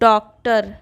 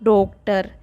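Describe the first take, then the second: First: The first vowel sounds close to an open 'a'. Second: The first vowel sounds like a rounded 'o'. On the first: The speaker calls it right. "इसको अ की ध्वनि से उच्चारित करते हैं" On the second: The speaker calls it wrong. "ना कि"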